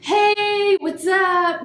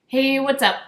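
First: The greeting is said aggressively and loudly. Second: The greeting is said in a calmer way.

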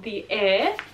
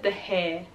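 First: The second word begins with a vowel sound. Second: The second word begins with an h sound. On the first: The speaker calls it right. "I'm saying it right this time" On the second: The speaker calls it wrong. "I literally said The Hair. That's really stupid of me"

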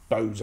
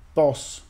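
First: The vowel is long, as in 'rose'. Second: The vowel is short, as in 'boss'. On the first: The speaker calls it right. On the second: The speaker calls it wrong.

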